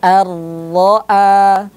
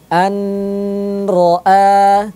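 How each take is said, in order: First: The n merges fully into the r sound. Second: The n before ra carries a nasal hum. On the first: The speaker calls it right. "huruf nunnya sudah tidak dibaca lagi ya, karena kita langsung masuk ke huruf ro-nya" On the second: The speaker calls it wrong. "tidak boleh didengungkan an ro'a, tidak boleh"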